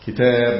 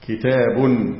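First: The word ends on a bare b sound. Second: The word ends with an added -un sound. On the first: The word stands alone at a pause. "تسكين الباء على الوقف" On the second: The word is not tied to the next word. "ضم الباء مع التنوين"

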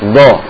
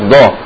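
The two takes are said the same way.

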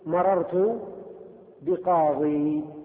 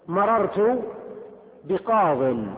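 First: The last word ends with a long 'ee' vowel. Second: The last word ends without a final long vowel. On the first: The speaker calls it wrong. "ولا تقول مررت بقاضي" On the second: The speaker calls it right. "وتقول في الجر مررت بقاض"

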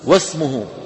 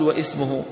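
First: No glottal stop; wa runs straight into sm. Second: A glottal stop and vowel come before sm. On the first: The speaker calls it right. "ماذا نقول؟ واسمه" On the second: The speaker calls it wrong. "ما نقول واسمه"

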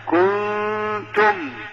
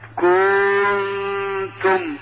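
First: The vowel is short and light. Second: The vowel is exaggerated and overdrawn. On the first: The speaker calls it right. "لا كنتم" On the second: The speaker calls it wrong. "فلا يبالغ في حركة الحرف... هذا خطأ"

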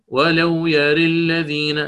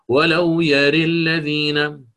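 Both takes have the same delivery.

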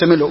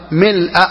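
First: The word ends without an 'a' vowel. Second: The word ends with an 'a' vowel. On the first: The word is not in the accusative case. The speaker calls it wrong. "وليس" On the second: The word is in the accusative case. The speaker calls it right. "بالنصب"

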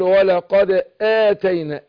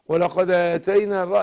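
First: The glottal stop before atayna is clearly pronounced. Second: The glottal stop before atayna is dropped. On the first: The speaker calls it right. "لكن انا حققه اقول" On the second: The speaker calls it wrong. "الهمزة كده رايحة"

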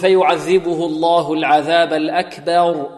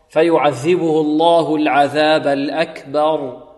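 First: The vowel after b is fronted toward e. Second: The vowel after b is a plain open a. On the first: The speaker calls it wrong. "فيميل فتحة الباء، وهذا خطأ" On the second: The speaker calls it right. "بدون تفخيم وبدون إملة"

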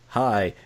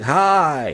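First: It is said calmly with low energy. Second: It is said brightly with high energy.

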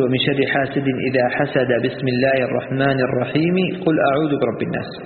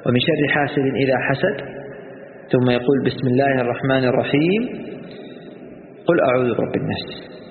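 First: Everything is joined without any pause. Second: Pauses after the verse and after the basmala. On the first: "وصل آخر السورة بالبسملة مع وصل البسملة بأول الثانية" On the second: "الوقف على آخر السورة وعلى البسملة"

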